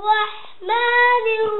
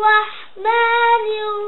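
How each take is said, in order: No difference in how they are said.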